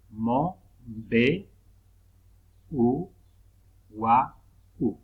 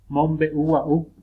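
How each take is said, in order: First: "Mo, be, u, wa, u" loud, with long pauses between syllables. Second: Said in the usual way. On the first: Shown as a demonstration. Teacher separating syllables at the puso, "Mo, be, u, wa, u" piece by piece. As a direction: isolate every syllable of "Mo, be, u, wa, u". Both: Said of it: "del puso al separar sílabas".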